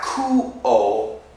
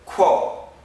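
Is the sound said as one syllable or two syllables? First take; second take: two syllables; one syllable. First: It is split into two separate syllables. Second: It is pushed together into one syllable. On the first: The speaker calls it wrong. "it's not ku-o" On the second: The speaker calls it right. "pushed together"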